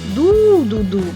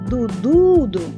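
First: The first syllable is stressed. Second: The middle syllable is stressed. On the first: "виділяє інтонацією перший склад" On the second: "ми будемо виділяти наголосом середній склад"

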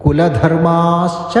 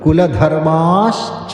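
First: A sh sound comes before ca. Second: A sh sound comes before ca.

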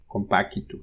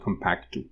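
First: An extra i vowel separates c and t. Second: The c and t are joined with no vowel. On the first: The speaker calls it right. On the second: The speaker calls it wrong.

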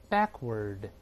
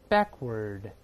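The two takes are said the same way.

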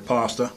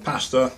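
First: The word is said in an American way. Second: The word is said in a British way.

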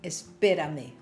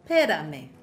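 First: The word begins with the syllable es. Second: The word begins directly with the p sound. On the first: "im ganz korrekten Spanisch" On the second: "Oder auch noch verkürzter"

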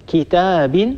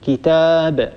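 First: The word ends with a short vowel plus n. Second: The word ends on a bare, unvoweled b. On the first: The word is joined to what follows. "وبدل أن نقول كتاب" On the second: The speaker pauses on the word. "فنحذف هذا التنوين ونقف على الحرف ساكنا"

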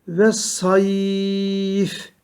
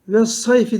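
First: The middle sound is lengthened and the word stops. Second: The middle sound is short and a vowel follows. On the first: The reciter pauses at the end of the word. "F harfinden durmak istiyoruz. Y'yi çekiyoruz" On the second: The reciter continues without stopping. "eğer okuyup geçersek ve sayfi diye okunur geçilir. Hiçbir tecvid kuralı olmaz"

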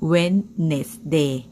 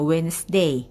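First: Every written syllable, including the d, is pronounced. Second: The d is silent, giving two syllables. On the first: "จริงๆแล้วถ้าเราอ่านตามเนี้ยอ่าน" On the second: "แต่ฝรั่งเขาออกเสียงแค่"

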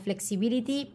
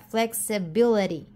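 First: The t is a clear, crisp t sound. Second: The t is a soft, r-like flap. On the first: "se escribe como flexibility" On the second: "se pronuncia flexibility. La T nuevamente no suena, sino que es como una R suave"

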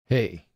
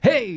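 First: It is said flat, with little energy. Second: It is said with lively, enthusiastic energy.

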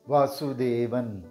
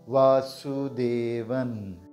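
First: It is said at normal speed. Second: It is said slowly.

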